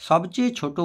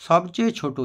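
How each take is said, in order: No difference in how they are said.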